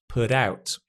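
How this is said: It is said in an American accent.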